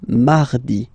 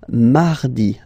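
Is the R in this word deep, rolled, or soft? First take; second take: Soft; Soft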